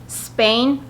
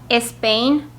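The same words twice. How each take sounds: The two takes are said the same way.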